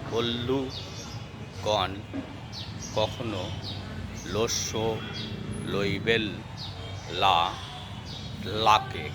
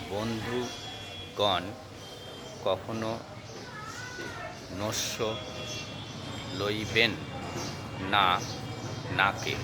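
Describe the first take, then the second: First: The n sounds are pronounced as l. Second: The n sounds are pronounced as n.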